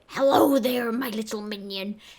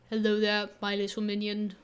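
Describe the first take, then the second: First: The voice is rough and raspy. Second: The voice is deep and low. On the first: "I did like a raspy" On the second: "I can't really do vo- low voices though"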